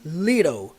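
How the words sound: It is said in an American accent. "No inglês americano é comum você ouvir little"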